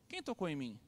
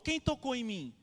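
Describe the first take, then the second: First: It is said as a simple question. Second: It is said as a loud exclamation.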